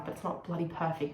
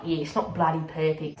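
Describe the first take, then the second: First: Said in the usual way. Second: Mildly hammed-up Aussie; Aussie accent. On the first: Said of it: "Why am I saying bloody". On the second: Speaker mocks their own slang, mock Aussie accent. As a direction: lean into the Aussie twang on "bloody". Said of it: "as if I'm so Aussie".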